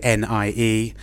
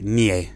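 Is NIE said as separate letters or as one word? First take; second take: letters; one word. First: It is spelled out letter by letter. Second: It is pronounced as a single word. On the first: "We in English, I suppose, would say NIE" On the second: "they've turned it into a word. ... they just say NIE"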